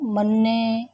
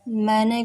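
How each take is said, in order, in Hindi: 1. इसे दोहरे 'nn' से बोला जाता है। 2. इसे एक 'n' से बोला जाता है। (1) "हरियाणा क्षेत्र के लोग" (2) "मैने को"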